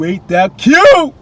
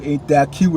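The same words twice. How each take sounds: First: Higher, louder, slowed-down cooing squeal; drawn-out high fawning squeal; gushing squeal. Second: Said in the usual way. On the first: Shown as a demonstration. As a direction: coo it like it's the cutest thing ever. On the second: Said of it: "Oh, ain't that cute?".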